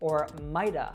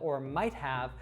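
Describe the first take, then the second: First: The word 'have' is reduced to a schwa. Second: The word 'have' is said fully. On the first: "reduce that simply to the schwa sound" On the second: "instead of us saying"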